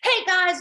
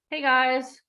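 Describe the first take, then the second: First: It sounds excited and energetic. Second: It sounds flat and unenthusiastic.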